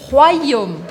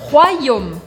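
Both takes have the same delivery.

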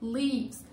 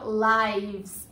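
First: The vowel is a short 'ih' sound. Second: The vowel is a long 'eye' sound. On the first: It is the verb meaning to live. "E aí a pronúncia é lives" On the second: It is the plural noun meaning lives. "Desse jeito, com esse som de I"

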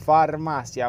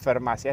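First: The vowel is said as a clear a. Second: The vowel sounds more like an e. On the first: The speaker calls it right. "es la farmacia, aunque suene como el orto" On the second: The speaker calls it wrong. "no es la farmacia"

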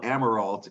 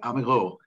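First: The name is said the English way. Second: The name is said the French way.

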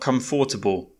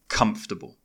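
First: The word is said with four full syllables. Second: The word is said with three reduced syllables. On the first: The speaker calls it wrong. "not comfortable" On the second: The speaker calls it right. "but comfortable"

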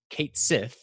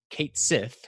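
First: It sounds like 'Kate Sith'. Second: It sounds like 'Kate Sith'.

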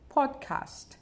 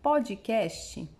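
First: It is said with an English accent. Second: It is said with a Brazilian Portuguese accent.

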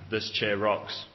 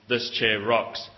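First: It is said as a plain, matter-of-fact statement. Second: It is said in a complaining, annoyed way.

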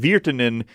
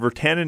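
First: The name has the native Finnish pronunciation. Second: The name has an anglicized Canadian pronunciation. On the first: "is the actual Finnish pronunciation" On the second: "I've been hearing Virtanen is the Canadian pronunciation"

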